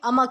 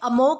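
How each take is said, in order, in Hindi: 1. दूसरा स्वर एक छोटी, कमज़ोर ध्वनि है। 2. दूसरा स्वर पूरा 'o' की ध्वनि है। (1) "ये अमक है" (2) "ये अमोक नहीं है"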